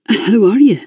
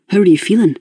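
First: A lightly strained repeat of the question. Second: Said in the usual way. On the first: A narrator's reading. Raymond asking Eleanor again, lightly strained. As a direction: press the question again, tight. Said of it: "sounding strained". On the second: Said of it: "he asked again".

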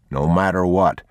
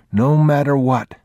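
First: Said in the usual way. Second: Put-on high child's echo of a promise; little boy repeating it, pitched high; young boy. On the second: A narrator's reading. Boy echoing his father's words, high childlike voice.

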